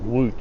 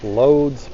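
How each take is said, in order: First: The name is said with local Polish sounds. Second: The name is read with plain English letter sounds.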